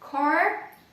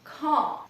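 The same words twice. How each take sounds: First: The r sound is clearly pronounced. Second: The r sound is dropped.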